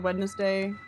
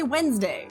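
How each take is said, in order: First: It is said as three syllables, Wed-nes-day. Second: It is said as two syllables, Wens-day. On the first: "I always say out loud Wednesday. Wed N E S Day" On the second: "the default pronunciation for Wednesday is, like, W E N S D A Y"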